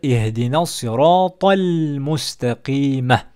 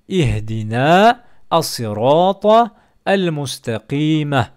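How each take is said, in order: First: The words run together, linked without breaks. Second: Each word is said separately, one by one. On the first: "en faisant la liaison" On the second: "ça nous donne mot par mot"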